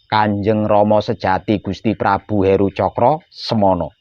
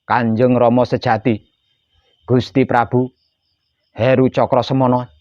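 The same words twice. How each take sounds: First: The whole name flows without any pause. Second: The name is broken up by pauses. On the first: The speaker calls it right. "Tahan, baru bersabda" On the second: The speaker calls it wrong. "Jangan sampai seperti itu"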